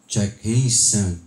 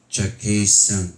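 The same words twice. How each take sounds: First: The voice sounds round and boomy in the lows. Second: The voice sounds cleaner with less low rumble. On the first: The speaker calls it wrong. "medyo bilog po ang aking boses" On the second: The speaker calls it right. "Wala po siyang ka-feedback-feedback guys"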